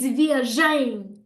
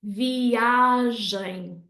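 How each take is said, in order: First: The stress falls on the last syllable. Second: The stress falls before the last syllable. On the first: The speaker calls it wrong. "they put the stress at the end" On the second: The speaker calls it right. "we want it to sound like this"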